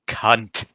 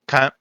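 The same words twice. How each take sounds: First: It is said the American way, harsh and hard. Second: It is said the British way, more casual.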